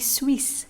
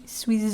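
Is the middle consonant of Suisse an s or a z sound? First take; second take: s; z. First: The middle consonant is a hissing s sound. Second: The middle consonant is a buzzing z sound. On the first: The speaker calls it right. "you pronounce it as S" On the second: The speaker calls it wrong. "not Z"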